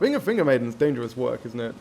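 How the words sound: It is said in a steady, confident voice.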